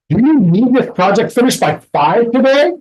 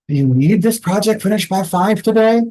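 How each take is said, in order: First: It is said in an angry tone. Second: It is said in a tired tone. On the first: The speaker is annoyed by the deadline. "I'm angry" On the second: The speaker is worn out by the demand. "Now you know I'm tired"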